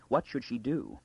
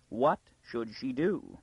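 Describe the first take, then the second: First: Said in the usual way. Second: WHAT SHOULD SHE DO drawn out slowly; slow, emphatic repeat. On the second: A narrator's reading. Girl alone in the cab asks "What should she do?", slow and emphatic. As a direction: stretch out each word of "What should she do?". Question repeated with mounting helplessness.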